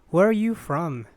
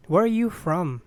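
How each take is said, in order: Both takes have the same delivery.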